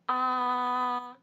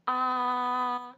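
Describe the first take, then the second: First: The pitch stays high and level. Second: The same.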